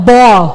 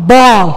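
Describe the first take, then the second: No difference in how they are said.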